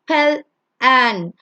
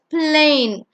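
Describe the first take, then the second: First: The vowels are sounded separately as two syllables. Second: Only the first vowel is sounded, one syllable. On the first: The speaker calls it wrong. "You don't say pel an" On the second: The speaker calls it right. "So it's plain"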